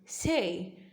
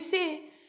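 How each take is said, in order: First: It is said with an American accent. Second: It is said with an Indian accent.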